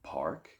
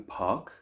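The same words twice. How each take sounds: First: It is said in an American accent. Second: It is said in a British accent. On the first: "in the U S, it's park" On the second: "In the United Kingdom, it might be park"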